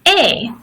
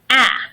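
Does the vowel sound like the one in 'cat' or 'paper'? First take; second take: paper; cat. First: The vowel is long, like in 'paper'. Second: The vowel is short, like in 'cat'. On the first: "the long A is going to be pronounced A, like paper" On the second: "The short A is pronounced A, like cat"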